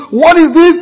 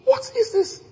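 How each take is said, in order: First: "What is this?" high and loud, rising; loud, high, agitated question; mixed feelings. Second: "What is this?" high and soft; awed, hushed question; hushed wonder. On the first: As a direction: push it out, half indignant. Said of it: "And if it goes mixed". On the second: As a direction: breathe it out in astonishment. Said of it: "He goes". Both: Retold or imitated.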